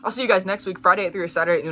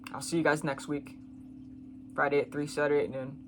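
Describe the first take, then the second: First: It is said with more drama and energy. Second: It is said slowly and without drama.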